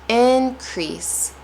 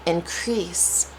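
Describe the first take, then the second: First: Increase said IN-crease, high IN; stress on first syllable. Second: Increase said in-CREASE; light in, drawn-out CREASE in increase; stress on second syllable. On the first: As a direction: hit IN hard in increase. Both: Shown as a demonstration. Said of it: "going to say it differently".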